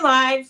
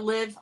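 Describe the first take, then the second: First: The vowel rhymes with 'five'. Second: The vowel rhymes with 'give'. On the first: "like lifestyle" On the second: "live like Olivia"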